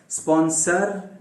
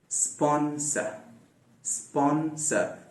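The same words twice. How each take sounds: First: स्पॉन्सर with the final r sounded; the rhotic स्पॉन्सर to avoid; wrong pronunciation. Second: Slow soft स्पॉन्सर ending in schwa, no r; correct pronunciation. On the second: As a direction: say स्पॉन्सर with the r dropped. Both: Shown as a demonstration. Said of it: "स्पॉन्सर नहीं".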